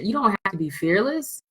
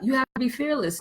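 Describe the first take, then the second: First: Firm correction with "don't" stressed. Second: "You have to be fearless" with a higher, softer mock-preachy tone; a higher, softer mock of the fearless cliché. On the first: Shown as a demonstration. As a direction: correct the cliché by punching "don't". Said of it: "No, that's bullshit". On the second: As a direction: parrot the common advice with a light mocking lilt. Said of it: "the fearlessness that everybody always talks about".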